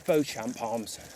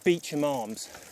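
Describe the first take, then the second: First: The name is said like Beauchamp. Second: The name is said like Beecham. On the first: This is how outsiders would say the name. "anybody who wasn't in the area would probably pronounce it the Beauchamp Arms" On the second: This is how locals say the name. "I'm reliably informed that it is called the Beecham Arms"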